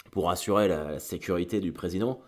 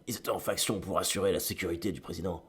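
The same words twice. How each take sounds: First: Said in the usual way. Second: Réplique posée comme un film doublé, plus bas en volume; mauvais doublage américain. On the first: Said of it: "j'ai l'impression de ... mauvais film américain". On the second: Pretend. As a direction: joue le flic sérieux d'une série B. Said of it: "d'un mauvais film américain". (ton léger de film américain doublé)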